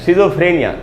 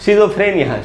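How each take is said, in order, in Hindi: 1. यह शब्द 'shi' ध्वनि से शुरू होता है। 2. यह शब्द 'shi' ध्वनि से शुरू होता है।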